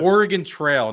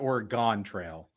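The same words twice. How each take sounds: First: The first word ends with a 'gun' sound. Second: The first word ends with a 'gone' sound. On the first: The speaker calls it right. "It's it's the" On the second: The speaker calls it wrong. "not the"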